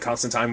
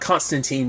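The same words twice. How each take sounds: First: The name is said the British way. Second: The name is said the American way. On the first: "like the more Britishization of it" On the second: "kind of like the Americanization of it"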